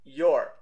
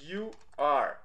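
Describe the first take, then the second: First: "your" run together as one short, louder syllable; contracted form. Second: YOU ARE said as two separate, drawn-out words; uncontracted form. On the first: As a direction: merge "you are" into a single "your", punched out. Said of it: "Pra você contrair". ("your" contraído numa sílaba só, mais forte) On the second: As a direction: say "you are" in full, each word apart. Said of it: "Your é a contração de". ("you are" por extenso, palavras bem separadas) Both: Shown as a demonstration.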